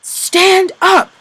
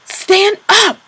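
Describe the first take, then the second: First: Loud high yell; shouted order. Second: Even louder, high yell. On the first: Capo yelling at the fallen prisoner, high and loud. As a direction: yell at him to get up. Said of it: "what he was shouting". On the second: Capo yelling again at the prisoner, louder. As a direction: yell it harder than before. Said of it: "yelling even more loudly". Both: Acted.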